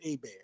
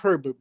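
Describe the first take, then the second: First: The name is said without an r sound. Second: The name is said with an r sound. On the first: The name keeps its original pronunciation. "if there's no R, then it's A Bear" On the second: The name is said the American way. "if there's an R after the E, it's Herbert"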